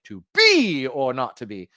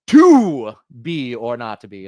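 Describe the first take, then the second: First: Slow "To be or not to be" with the end "be" weighted; a different mock Hamlet reading; shifted stress. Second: Slow, louder "To be or not to be" with stress on "To"; mock Hamlet, punch "To"; hammed-up stage reading; shifted stress. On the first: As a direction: another actor's take, landing on "be". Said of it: "the next one's like". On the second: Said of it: "puts the accent on a different word".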